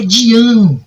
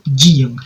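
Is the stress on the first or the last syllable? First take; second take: last; first. First: The stress is on the last syllable. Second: The stress is on the first syllable. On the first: This is how the name's owner says it. "A sílaba forte é o an" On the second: This is how the name was learned from writing. "mas eu falo Dian"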